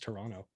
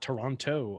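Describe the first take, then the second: First: The second T is dropped entirely. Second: The second T is clearly pronounced. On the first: This is how locals say it. The speaker calls it right. "without pronouncing the second T" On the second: This is how outsiders say it. The speaker calls it wrong. "It's not Toronto up there"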